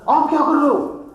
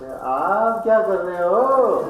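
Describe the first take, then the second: First: It sounds like an alarmed warning. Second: It sounds knowing and teasing.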